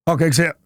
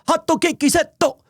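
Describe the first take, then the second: First: It is said the English way, without extra vowels. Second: It is said Japanese-style, with vowels added. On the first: The speaker calls it wrong. "How could you blow it? It's an English word" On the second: The speaker calls it right. "Just just add the vowels"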